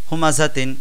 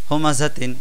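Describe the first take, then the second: Both takes have the same delivery.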